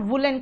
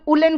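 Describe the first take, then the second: First: The word begins with a clear w sound. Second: The word begins with a vowel, no w sound. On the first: The speaker calls it right. "उसको आप वुडन और वुलन कहोगे" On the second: The speaker calls it wrong. "कुछ लोग उलन कहते हैं"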